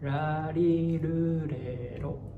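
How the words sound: It has a soft, relaxed Japanese R.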